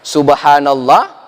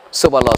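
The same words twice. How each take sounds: First: It is said at a calm, steady rhythm. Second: It is said very fast and rushed together. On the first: The speaker calls it right. "ritmenya aman" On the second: The speaker calls it wrong. "kalau sudah cepat lagi apa? Tidak boleh"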